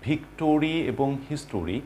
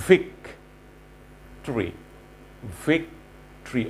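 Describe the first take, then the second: First: Victory and history with a full tor-ee in the middle; the common mistake, every syllable said; wrong pronunciation. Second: Victory said as vic-tri, the tor clipped short; short tri ending, no o; right pronunciation. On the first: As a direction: spell out vic-TOR-y and his-TOR-y. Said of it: "these are not the right pronunciations". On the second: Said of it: "The right pronunciation is". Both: Shown as a demonstration.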